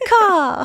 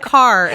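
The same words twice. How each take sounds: First: It is said in an English accent. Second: It is said in an American accent.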